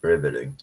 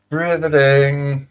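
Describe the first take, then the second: First: Said in the usual way. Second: "Riveting" stretched long on a high held pitch; high, slow, sustained "Riveting"; drawn-out riveting. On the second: Acted. Host repeating one word for effect, drawn out high.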